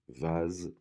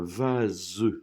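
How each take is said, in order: First: The final syllable is pronounced weakly and lightly. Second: The final syllable is pronounced fully and clearly. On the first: "normalement, elle est moins accentuée" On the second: "j'ai fait exprès de prononcer la dernière syllabe"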